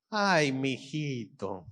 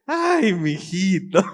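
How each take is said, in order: First: Slow, soft motherly sigh of words; tender mother. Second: Slow, loud mock reproach; exasperated mother. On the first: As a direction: draw it out softly over your little boy. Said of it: "cuando las mamás". (mamá tierna, lento y suave) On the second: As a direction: draw it out loudly, as if he's a scatterbrain. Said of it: "Cabeza de chorlito". (mamá exasperada, fuerte y alargado) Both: Shown as a demonstration.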